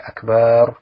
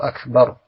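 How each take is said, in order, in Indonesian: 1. Vokal setelah b dibaca panjang. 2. Vokal setelah b dibaca pendek. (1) "jangan sampai dipanjangkan" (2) "makanya ba-nya pendek saja"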